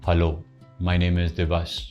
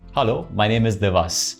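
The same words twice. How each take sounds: First: The greeting sounds flat, without a smile. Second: The greeting sounds warm, with a smile. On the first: The speaker calls it wrong. "Don't say" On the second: The speaker calls it right. "compliment with a smile"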